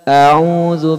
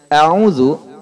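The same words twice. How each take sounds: First: The first vowel is drawn out long. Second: The first vowel is kept short. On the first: It asks whether I seek refuge. The speaker calls it wrong. "memanjangkan hamzah sehingga membacanya a'udzu billah" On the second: It states that I seek refuge. The speaker calls it right. "itu artinya aku berlindung"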